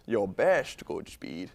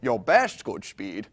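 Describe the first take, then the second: First: It is said slowly. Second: It is said fast.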